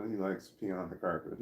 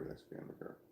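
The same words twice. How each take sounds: First: Said in the usual way. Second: Whispered aside, under the breath. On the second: Real, not acted. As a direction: whisper it to yourself. Repeats the line in a whisper.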